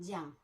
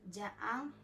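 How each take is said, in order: First: The vowels merge into a single syllable. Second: Both vowels are pronounced as separate syllables. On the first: "es pronuncien eh, jan" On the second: "en lloc de pronunciar ja an"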